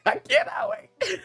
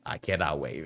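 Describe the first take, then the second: First: Very high, laughing squeal. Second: Said in the usual way. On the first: Real, not acted.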